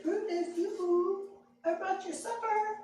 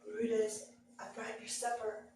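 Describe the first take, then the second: First: High, lilting call to a hidden dog; high sing-song yoo-hoo to a dog; coaxing sing-song call. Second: Soft, crouched-down coax to a dog; quiet, careful coaxing; low coaxing. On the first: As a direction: coo his name up high to tempt him out. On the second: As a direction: hush it, coaxing a dog out of hiding. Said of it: "got down real low and I said". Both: Retold or imitated.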